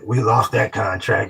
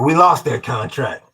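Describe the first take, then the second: First: The words are mumbled and hard to hear. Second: The words are said clearly and audibly.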